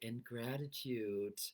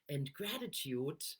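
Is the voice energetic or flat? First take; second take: flat; energetic. First: It is said with low, flat energy. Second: It is said with high, lively energy. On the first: The feeling does not match the words. The speaker calls it wrong. "I'm not saying" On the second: The speaker feels joy and excitement. The speaker calls it right. "you hear it in my voice"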